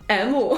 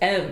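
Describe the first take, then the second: First: The letter is said with a Chinese-style pronunciation. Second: The letter is said with a plain English pronunciation. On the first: "I would say the letters in the English letters in Chinese" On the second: "instead of just M"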